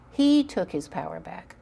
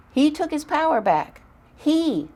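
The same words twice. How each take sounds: First: Said in the usual way. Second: "He took his power back" pushed high and loud, "He" hit hardest; proud emphasis. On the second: Real, not acted. Mother proudly stressing her son's win, high and loud.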